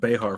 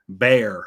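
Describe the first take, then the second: First: The name is said like 'behar'. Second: The name is said like 'bear'. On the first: This is how the speaker had assumed it was said. The speaker calls it wrong. "I always thought it was Behar for some reason" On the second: This is how the speaker has just been told it is said. The speaker calls it right. "do you just pronounce it Bear?"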